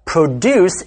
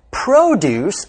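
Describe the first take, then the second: First: "produce" stressed on the second syllable, pro-DUCE; verb stress. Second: "produce" stressed on the first syllable, PRO-duce; noun stress. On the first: Teacher lists heteronyms for learners, slow "produce" with second-syllable stress. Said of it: "place the stress on the second syllable". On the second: Teacher lists heteronyms for learners, slow "produce" with first-syllable stress. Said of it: "put the stress on the first syllable". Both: Shown as a demonstration.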